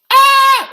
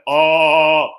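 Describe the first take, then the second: First: Ah held high, level and loud; ah sustained on a high note. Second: Ah drawn out, falling lower than the first; ah held long on a lower note. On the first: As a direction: hold a long loud ah up high. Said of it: "There's a ah and a ah". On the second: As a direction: let a long loud ah sink down low. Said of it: "You wanna go down low". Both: Shown as a demonstration.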